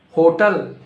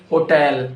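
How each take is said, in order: First: "Hotel" as HO-tul; wrong HOTEL. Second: "hotel" as ho-TELL; corrected HOTEL. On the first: Teacher quizzing learners on "Hotel", said as HO-tul. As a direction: say "Hotel" with stress up front, weak ending. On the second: Teacher correcting learners, "hotel" said as ho-TELL. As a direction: say "hotel" with a full TELL ending. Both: Shown as a demonstration.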